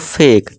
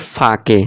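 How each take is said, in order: First: The a says its name and final e is silent. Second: The a is short and the final e is sounded. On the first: The speaker calls it right. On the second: The speaker calls it wrong.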